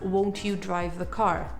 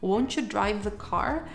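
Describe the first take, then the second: First: 'Won't you' is said fully and clearly. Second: 'Won't you' is reduced to 'won't ya'. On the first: "Instead of" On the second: "you could hear someone asking"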